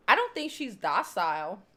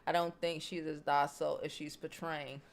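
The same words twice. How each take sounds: First: "don't" pressed a bit louder, ending on a rise; firm disagreeing echo; emphatic retort. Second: Said in the usual way. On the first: Real, not acted. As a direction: push back on "don't" in "I don't think she's docile". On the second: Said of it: "she said".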